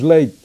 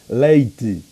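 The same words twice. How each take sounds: First: The final syllable is nearly swallowed, Portugal-style. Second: The final syllable is fully pronounced.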